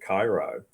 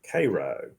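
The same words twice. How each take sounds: First: Cairo is pronounced like the Egyptian city. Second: Cairo is pronounced the local Georgia way. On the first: This is not how locals say the town's name. The speaker calls it wrong. "people get really upset if you pronounce it Cairo" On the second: This is how locals say the town's name. The speaker calls it right. "determined that the proper pronunciation was Cairo"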